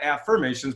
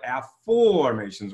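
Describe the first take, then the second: First: AFFIRMATIONS with an "fur" middle syllable; contrasted pronunciation. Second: AFFORMATIONS with a long, stretched "for" in the middle; pronounced with an O. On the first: Coach contrasts the old word, affirmations said with "fur". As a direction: say "affirmations" the ordinary way, af-fur-MAY-shuns. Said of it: "not affirmations". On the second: Coach teaches his coined word, afformations with a drawn-out "for". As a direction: stretch the O in "afformations": af-FOOOR-mations. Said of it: "with an O". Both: Shown as a demonstration.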